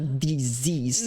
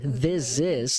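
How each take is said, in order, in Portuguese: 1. A vogal em 'this' soa como um 'ee' tenso. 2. A vogal em 'this' soa próxima de 'e'. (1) "não é this is" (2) "Ele é meio e"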